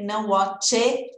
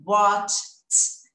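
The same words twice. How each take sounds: First: Watch it with a separate it syllable; wrong version. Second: Watch it as one crisp word ending in T; correct past sound. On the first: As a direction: show the wrong watch it with a vowel after tch. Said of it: "Não tem esse tch". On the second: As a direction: say Watch it short, no extra syllable. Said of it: "E não watch it". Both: Shown as a demonstration.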